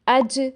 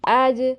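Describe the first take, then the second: First: The j has air hissing through it. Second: The j sounds loose, close to a y. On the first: "ज़बान के अगले हिस्से को ऊपर वाले दांतों के साथ टच करते हैं ... हवा निकलती महसूस होती है" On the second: "थोड़ा सा गैप रहने देते हैं ... या से ज़्यादा मिलती है"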